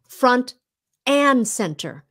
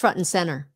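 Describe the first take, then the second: First: The word 'and' is said clearly and fully. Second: The word 'and' is run together, sounding like 'in'.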